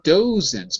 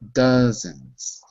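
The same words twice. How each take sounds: First: The first vowel differs from the vowel in duck. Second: The first vowel sounds like the vowel in duck. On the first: The speaker calls it wrong. "Not dozens" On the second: The speaker calls it right. "like duck"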